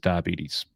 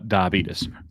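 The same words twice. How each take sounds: First: It is said in a standard accent. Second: It is said in an Alabama accent.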